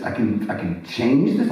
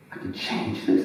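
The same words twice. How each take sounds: First: Stammered question with CHANGE leaned on; retold disbelief, voiced out at talking level; dawning amazement. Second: Low, soft retold question; quiet, tentative wonder; hushed disbelief. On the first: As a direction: restart it, then ask with growing wonder. Same question repeated as it sinks in. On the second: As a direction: ask it softly, as if it's only dawning on you. Retelling his naive dawning realization.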